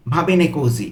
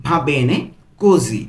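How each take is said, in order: First: Said in the usual way. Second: "Va bene ... così", split by a pause; broken into pieces. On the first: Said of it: "একসাথে পুরোটা কি বলতে পারি". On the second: Shown as a demonstration. Teacher putting the whole phrase together, in pieces. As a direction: hold back "così" after a gap. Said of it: "আমি কিন্তু ভেঙে ভেঙে বলছি".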